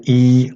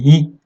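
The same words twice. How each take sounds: First: "i" drawn out as a full long vowel. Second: "i" clipped short and light; short vowel i. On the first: Teacher showing the long Arabic vowel, held long. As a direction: hold the "i" long and marked. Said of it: "voyelles longues ... de manière un peu plus allégée". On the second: Teacher showing the short Arabic vowel, said short and light. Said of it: "de manière un peu plus allégée". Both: Shown as a demonstration.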